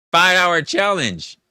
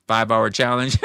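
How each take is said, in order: First: Laughs out the words, loud and high; cracking up while repeating the request; laughing. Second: Said in the usual way. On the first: Real, not acted. Streamer laughing as he repeats chat's challenge, laughing.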